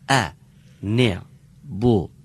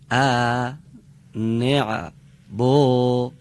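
First: The short vowel is kept short. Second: The short vowel is stretched out long. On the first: The speaker calls it right. "فقط صدای کشیده مقداری کشیده میشه" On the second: The speaker calls it wrong. "صدای کوتاه رو یه مقداری میکشن، مثلا میگن ا نع بو، این غلط میشه"

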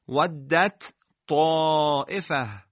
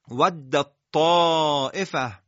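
First: The d and t sounds are pronounced separately. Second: The d and t sounds are merged into one. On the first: The speaker calls it wrong. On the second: The speaker calls it right.

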